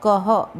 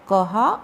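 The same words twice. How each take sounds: First: कह ending on a short, unstretched a; short final a. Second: कहा ending on a full long ā; long final ā. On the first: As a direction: say कह with a brief final अ after the h. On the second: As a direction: say कहा with an open, held final आ. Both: Shown as a demonstration. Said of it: "कहा और कह दोनों बोल सकते हैं".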